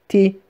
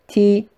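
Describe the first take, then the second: First: The syllable sounds very thin and sharp. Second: The same.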